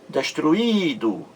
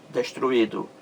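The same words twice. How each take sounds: First: Destruído with a long held í, then a short do; stressed, stretched i. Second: Said in the usual way. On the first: Shown as a demonstration. Teacher showing where the hiato falls, stretched stress on the í of Destruído. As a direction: draw out the i in Destruído. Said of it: "ele está sozinho na sílaba". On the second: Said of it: "leva acento gráfico nesse I aí".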